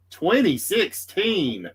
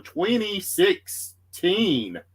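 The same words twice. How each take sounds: First: Twenty sixteen said slowly and higher, each word weighed; slow, marvelling repeat of Twenty sixteen; stress on Twenty sixteen. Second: Said in the usual way. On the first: Shown as a demonstration.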